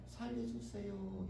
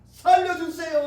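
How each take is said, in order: First: It is said quietly and calmly. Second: It is shouted loudly and urgently.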